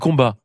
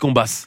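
First: The final s is silent. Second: The final s is clearly pronounced. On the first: The speaker calls it wrong. "on ne dit pas combat" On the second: The speaker calls it right. "on dit combasse"

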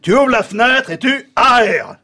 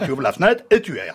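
First: 'Aères' begins with two separate vowels, a then è. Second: 'Aères' begins with a single è vowel sound. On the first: The speaker calls it right. "A suivi de E, ça se prononce pas E" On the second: The speaker calls it wrong. "Et non pas"

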